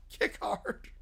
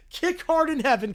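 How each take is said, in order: First: "Kick hard." breathed in a whisper; whispered echo. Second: Said in the usual way. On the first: Shown as a demonstration.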